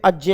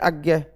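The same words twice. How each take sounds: First: The conjunct is pronounced strictly as j plus ñ. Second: The conjunct is pronounced in the everyday regional way. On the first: This is the formally correct pronunciation. "कायदन तो ये अज्ञ होगा, जय और ई से मिलके बनता है ना" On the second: This is how people in the region usually say it. "हमारा उच्चारण जो है हम यही करते हैं अज्ञ"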